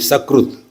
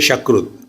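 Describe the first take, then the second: First: The word begins with a plain s sound. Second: The word begins with a sh sound. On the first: It means once. The speaker calls it right. "Always say properly Sakrut" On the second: It means fecal material. The speaker calls it wrong. "Don't say Shakrut"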